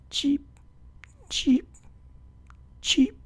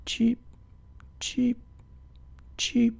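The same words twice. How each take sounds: First: Whispered high chirps; tiny hushed bird cheeps; soft cheeping. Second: High chirps, a touch quieter; small bird cheeps in a row; little chirps from up on the branch; bird cheeping. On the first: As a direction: barely breathe the cheeps. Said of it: "cheeping softly on the branch above them". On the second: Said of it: "They could hear him cheeping". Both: A narrator's reading.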